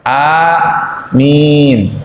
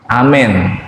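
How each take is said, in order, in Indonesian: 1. A pertama panjang, m-nya tidak ganda. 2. Bunyi vokalnya condong ke e. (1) "A-nya panjang, mimnya panjang, dan mimnya tanpa tasdid" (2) "bacanya dimiringin"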